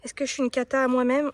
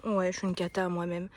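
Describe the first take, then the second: First: "cata à moi-même" asked on a lifted pitch; self-directed question. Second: "Ouais" then "cata à moi-même", dropped lower and softer; resigned self-answer. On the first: Gardener wonders aloud about herself, questioning lift on "cata". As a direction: ask yourself, lifting "cata". Asks herself, then answers. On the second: Gardener concedes to herself, lower settled "cata à moi-même". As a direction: answer yourself, letting "cata" sink. Answers her own question. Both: Real, not acted.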